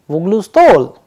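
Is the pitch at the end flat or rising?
rising. The pitch rises at the end. It is a question.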